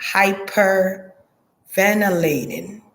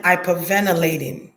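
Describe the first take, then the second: First: "Hyperventilating" drawn out slowly, each syllable spelled out; slow, careful repeat. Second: Said in the usual way. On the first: Shown as a demonstration. Medium names the word she hears, slowly and deliberately. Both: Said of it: "what they call this word I'm hearing".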